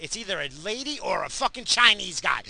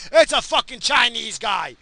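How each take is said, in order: First: Said in the usual way. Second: Loud angry call. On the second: Real, not acted. Angrily shouting at a driver.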